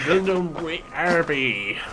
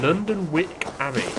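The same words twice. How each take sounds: First: It is said in a put-on old-timey accent. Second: It is said in the speaker's plain voice.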